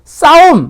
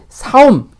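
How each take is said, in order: First: The first consonant is a tense ss sound. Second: The first consonant is a plain s sound. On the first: The speaker calls it right. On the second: The speaker calls it wrong.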